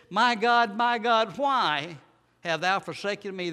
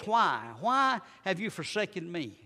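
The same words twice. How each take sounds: First: High, loud cry of anguish to God; a forsaken son's loud, pleading cry. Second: A touch of a broken heart in the question; hurt pleading why. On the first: Acted. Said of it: "And it says in verse forty-six". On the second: Shown as a demonstration. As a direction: ask why like a hurt child. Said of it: "The tone of his voice".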